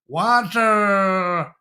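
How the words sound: It is said the American way, with a heavy R. The speaker calls it wrong. "It's not water"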